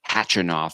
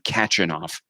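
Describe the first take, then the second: First: The name begins without a K sound. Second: The name begins with a clear K sound. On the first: The speaker calls it right. "It's just Khachanov" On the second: The speaker calls it wrong. "I was calling him Khachanov, but apparently you don't pronounce the K"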